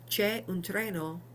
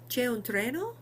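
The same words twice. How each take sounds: First: The pitch falls at the end. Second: The pitch rises at the end. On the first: It states that a train exists. "there is a train" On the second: It asks whether a train exists. "with uh, a rising tone and a slightly helpless look on your face"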